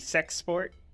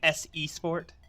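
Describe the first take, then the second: First: The start is said as one syllable. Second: The start is said as separate letters. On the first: The speaker calls it right. "It's actually supposed to be Sex Sport" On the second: The speaker calls it wrong. "some people pronounce my name S E Sport. That's not how it's pronounced"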